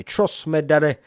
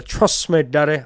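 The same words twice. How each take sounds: First: Sing-song "daddy" tease; Shane Gill catchphrase. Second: Shane Gill catchphrase. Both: Retold or imitated. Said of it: "I got that from Shane Gill".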